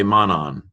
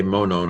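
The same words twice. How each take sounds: First: Monon with open "ah" vowels, "mah-nahn"; both vowels of monon open, like "on"; alternative pronunciation. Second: Monon with long "oh" vowels, "moh-nohn"; both vowels of monon rounded, like "own"; speaker's preferred pronunciation. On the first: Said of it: "some people say monon". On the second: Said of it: "I say monon". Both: Shown as a demonstration.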